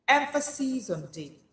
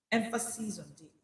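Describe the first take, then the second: First: Lifted emphatic Emphasis on daily; stress on daily. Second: Quiet echo of Emphasis on daily; soft repeat. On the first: Preacher stressing daily to listeners. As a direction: push daily. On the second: Preacher repeating the stress, softer. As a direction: let it settle softly. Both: Shown as a demonstration.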